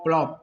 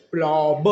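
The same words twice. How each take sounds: First: Said in the usual way. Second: प्लॉब with a long vowel, final ब released as "buh"; sounded out. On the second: Shown as a demonstration. Teacher sounding out प्लॉब for learners, long vowel and released ब. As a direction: stretch प्लॉब, then release ब separately. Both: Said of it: "बनता है दोस्तों हमारा क्या".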